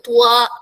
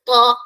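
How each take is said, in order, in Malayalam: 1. ചുണ്ടുകൾ വട്ടമാകുന്നു, w പോലുള്ള ഒരു ഗ്ലൈഡ് ചേരുന്നു. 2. ചുണ്ടുകൾ വട്ടമാകാതെ നിൽക്കുന്നു, w പോലുള്ള ഗ്ലൈഡ് ഇല്ല.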